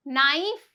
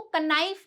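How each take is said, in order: First: नाइफ starting straight on N, no K sound; नाइफ with the K left silent. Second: कनाइफ with an audible "ka" before the N; K wrongly sounded. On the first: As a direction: say नाइफ as "nife". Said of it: "यहाँ पे के silent है". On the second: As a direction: say कनाइफ as "kuh-nife". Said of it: "इसको कनाइफ नहीं बोलते हैं". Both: Shown as a demonstration.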